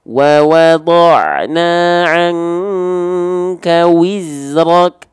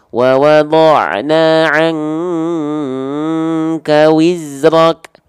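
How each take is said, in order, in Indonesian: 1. Bunyi w diucapkan dengan bibir membulat, dimonyongkan. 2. Bunyi w diucapkan tanpa bibir membulat. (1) "Waw harus dimuncungkan" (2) "banyak orang melafalkan waw itu seperti ini"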